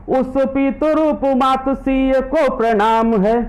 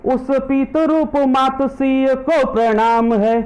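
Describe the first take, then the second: No difference in how they are said.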